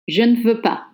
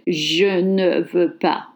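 First: The e sounds are softened and nearly dropped. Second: The e sounds are fully pronounced. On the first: The speaker calls it right. "the E is softened and almost dropped" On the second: The speaker calls it wrong. "Nobody in French will say je ne veux pas"

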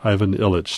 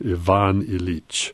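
First: The name is said with an Americanized pronunciation. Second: The name is said with its original pronunciation. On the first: The speaker calls it wrong. "I pronounced that the American way" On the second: The speaker calls it right. "saw how it was supposed to be pronounced"

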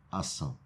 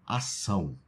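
First: It is said softly, without force. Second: It is said forcefully, like a command.

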